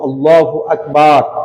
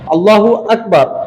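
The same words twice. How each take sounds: First: The second vowel of Akbar is lengthened. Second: The second vowel of Akbar is short. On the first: God is a drum. The speaker calls it wrong. "একটা আলিফ বৃদ্ধি করার কারণে" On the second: God is the greatest. The speaker calls it right. "অর্থ আল্লাহ সবচাইতে বড়"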